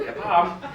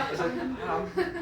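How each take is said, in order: First: "palm" said louder through a laugh; laughing demo. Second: "palm" stretched out slowly, with a laugh; drawn-out demo. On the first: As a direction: laugh while saying "palm". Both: Shown as a demonstration.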